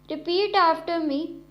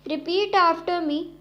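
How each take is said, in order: No difference in how they are said.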